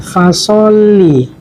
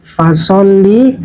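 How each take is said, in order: First: The L sound is doubled and held long. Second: The L sound is doubled and held long.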